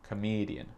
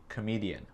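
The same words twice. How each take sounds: No difference in how they are said.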